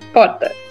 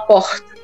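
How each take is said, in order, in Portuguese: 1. Dito com sotaque da cidade de São Paulo. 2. Dito com sotaque carioca, com um R parecido com S. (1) "Em São Paulo, capital, que é de onde eu sou... eu falo porta" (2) "no Rio de Janeiro ele fala porta. O R tem um S junto"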